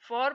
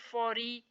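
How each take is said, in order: First: The word ends on the r sound. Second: The word ends with an extra ee vowel. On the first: The speaker calls it right. "इसको फॉर पढ़ेंगे" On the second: The speaker calls it wrong. "ऐसे नहीं पढ़ेंगे"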